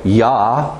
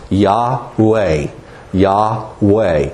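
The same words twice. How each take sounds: First: Yah-u-hey said as three separate syllables, yah, u, hey. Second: Yahweh run together in two syllables, yah-weh. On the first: Preacher showing the wrong three-syllable way, Yah-u-hey split. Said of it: "if it was three syllables". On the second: Preacher showing the right way, quick two-beat Yahweh. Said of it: "Make it two syllables". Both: Shown as a demonstration.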